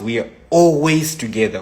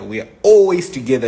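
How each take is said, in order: First: Said in the usual way. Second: ALWAYS pushed harder, louder and fast; "always" hammered home, louder and quicker; emphatic repeat. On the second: Shown as a demonstration. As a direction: insist on "always" in "We are always together".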